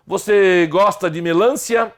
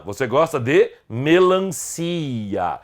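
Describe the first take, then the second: First: Melancia said as me-LÂN-cia, higher question; wrong stress on LAN. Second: Melancia with a long, drawn-out CI; correct stress on CI. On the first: Teacher joking about the fruit, melancia wrongly stressed on LAN. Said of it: "Não, você gosta de melancia". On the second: Teacher correcting the fruit's name, melancia stressed on CI. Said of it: "a sílaba tônica é o si". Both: Shown as a demonstration.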